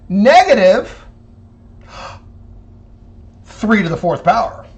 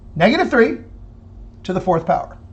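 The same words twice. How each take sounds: First: Negative is said separately, set apart from three. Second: Negative three is said together as one unit. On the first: Only the three is raised to the power, then negated. "it's as if the negative is separate from the three" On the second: The negative number as a whole is raised to the power. "Listen to part A, how I say it"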